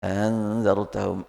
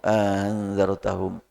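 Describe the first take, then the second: Both takes have the same delivery.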